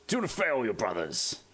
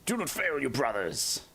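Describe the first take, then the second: First: Space Marine battle cry. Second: High, strained soldier's command; Space Marine battle cry. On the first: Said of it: "Do this one too". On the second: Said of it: "I can do a few of them". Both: Retold or imitated. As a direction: bark it like a zealous space warrior.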